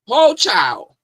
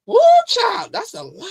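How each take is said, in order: First: Shocked exclaim. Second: Shocked shriek. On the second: Reacting to the allegations, high loud shriek. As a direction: shriek it in disbelief. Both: Real, not acted.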